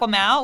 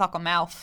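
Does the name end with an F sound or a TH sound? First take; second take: TH sound; F sound. First: The name ends with a TH sound, like mouth. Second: The name ends with a stressed F sound. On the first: The speaker calls it wrong. "it's not Aquamouth, which would be even more hilarious" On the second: The speaker calls it right. "It's Aquamouth"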